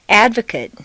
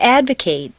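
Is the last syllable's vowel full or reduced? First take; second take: reduced; full. First: The final syllable has a weak, reduced vowel. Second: The final syllable has a full 'ay' vowel. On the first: It is used as a noun or adjective. "in an adjective is completely reduced to mt" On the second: It is used as a verb. "in a verb it's a full a sound"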